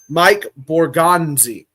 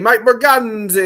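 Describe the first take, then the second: First: It is said in a plain, ordinary accent. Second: It is said in a New York Italian accent. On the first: "I'm gonna make sure I say this right" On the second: "New York Italian accents put on"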